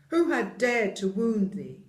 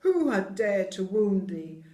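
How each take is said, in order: First: Loud, furious giant demand; angry giant. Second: Loud, outraged giant cry; angry cry. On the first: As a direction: roar it in outrage. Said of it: "his face grew red with anger". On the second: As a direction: cry out the demand. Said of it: "cried the giant". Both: Acted.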